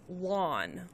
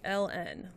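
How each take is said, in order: First: It is said as one word, lawn. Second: It is said as two separate letters. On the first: The speaker calls it wrong. "in Arizona they called it lawn" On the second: The speaker calls it right. "I've never heard it called anything but LN"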